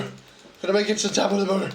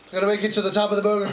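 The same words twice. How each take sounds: First: Said in the usual way. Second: Fast gabble. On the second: Real, not acted. Said twice, faster.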